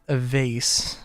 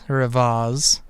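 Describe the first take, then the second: First: "vase" said to rhyme with "face"; vase rhyming with face. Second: "vase" said as "vahz". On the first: Streamer naming what they made, "vase" rhyming with "face". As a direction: say "vase" with an AY vowel, ending in S. Two pronunciations of vase offered. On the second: Streamer offering the other pronunciation, "vase" said as "vahz". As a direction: say "vase" with an AH vowel, ending in Z. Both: Shown as a demonstration.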